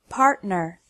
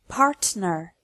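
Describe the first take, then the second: First: The T is cut off in the throat. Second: The T is a normal, fully released T. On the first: The speaker calls it right. "correctly with the T as a glottal stop" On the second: The speaker calls it wrong. "pronounced incorrectly with a normal T sound"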